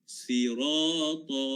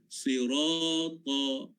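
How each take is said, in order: No difference in how they are said.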